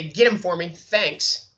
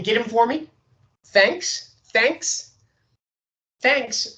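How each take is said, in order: First: Falling directive close; final fall on thanks; downward inflection. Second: Thanks sung up high and rising; bright rising thanks; upward inflection. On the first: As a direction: get him for me said falling and firm. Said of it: "it's a directive". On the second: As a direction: lift the pitch on every thanks. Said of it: "with an upward inflection". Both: Shown as a demonstration.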